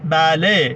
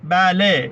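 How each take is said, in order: The two takes are said the same way.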